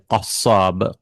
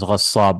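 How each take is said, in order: First: The word begins with a deep q sound. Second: The word begins with a gh sound. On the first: This is the standard form of the word. "It's actually qassab. Qaf" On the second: This is the dialect form of the word. "it becomes ghassab"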